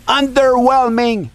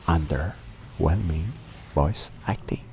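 First: Loud, high-pitched yell; shouted take. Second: Subdued take. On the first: Narrator redoing his review line, shouting. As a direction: blast the word out at full volume. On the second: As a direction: drop the volume, spacing the words out. Retakes of line, quiet slow take. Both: Acted.

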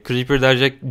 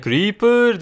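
First: Said in the usual way. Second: Meme voice. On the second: Retold or imitated. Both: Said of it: "bu seride sürekli şey diyordum böyle".

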